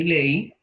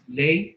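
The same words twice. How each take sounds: First: "ley" split into le-Í, stressed final i. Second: "Ley" as one syllable, strong e into weak i; stress on E. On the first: Teacher comparing same sounds, hiatus "ley" said le-Í. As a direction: break "ley" in two, hit the i. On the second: Teacher comparing same sounds, diphthong "Ley". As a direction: keep "Ley" together, weight on the e. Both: Shown as a demonstration. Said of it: "la intensidad es diferente".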